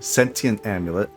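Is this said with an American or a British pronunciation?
British. It is said with a British pronunciation. "as the British say"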